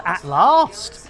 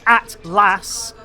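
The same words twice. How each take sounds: First: "at last" with a long ah in last; "at last" with a southern English broad a; intended reading. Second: "at last" with a short flat vowel in last; "at last" read as atlas, short a; as spelt. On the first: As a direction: say "at last" as lahst, drawn out slowly. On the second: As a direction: say "at last" with the a of cat, drawn out slowly. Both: Shown as a demonstration. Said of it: "although it says at last".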